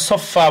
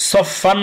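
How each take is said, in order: First: সফ ফা ending on an open "aa", no n; সফ ফা stopped on the vowel; open pausal ending. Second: সফ ফান closed with a clear "n"; সফ ফান ending on the tongue tip. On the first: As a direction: drop the n at the end of সফ ফা. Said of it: "এখানে সফ ফা বলবো". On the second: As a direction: sound the final n of সফ ফান. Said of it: "সফ ফান না বলে". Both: Shown as a demonstration.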